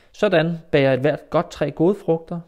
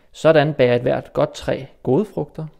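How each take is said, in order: Both takes have the same delivery.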